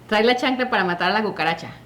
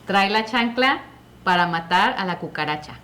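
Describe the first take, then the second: First: It is said fast. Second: It is said slowly.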